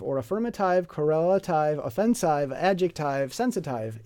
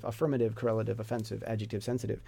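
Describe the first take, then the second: First: -ive said like eye-v, rhyming with five; affirmative, sensitive ending in eye-v; wrong -ive endings. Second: -ive said short iv; affirmative, sensitive ending in short iv; right -ive endings. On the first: Teacher mocks the spelled-out eye-v endings. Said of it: "It's not". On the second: Teacher gives the correct short iv endings. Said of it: "It's iv". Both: Shown as a demonstration.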